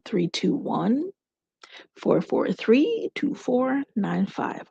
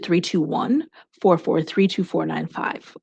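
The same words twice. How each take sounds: First: The number is read more slowly. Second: The number is read at normal speed.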